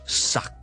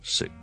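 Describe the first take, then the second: First: The syllable is said loudly and strongly. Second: The syllable is said softly and lightly. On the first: The speaker calls it wrong. "我们不是很大声的一个suck" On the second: The speaker calls it right. "只需要轻轻的一个sick"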